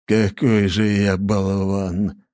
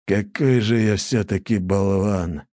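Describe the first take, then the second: First: Very slow, drained and helpless; slow, defeated mild despair; helpless repetition. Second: Slow, sighing at himself; mild slow self-reproach. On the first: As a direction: repeat it, defeated. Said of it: "только и смог повторить Лажон". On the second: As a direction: say it slowly, a sigh of regret. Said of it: "вздохнул и негромко добавил". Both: A narrator's reading.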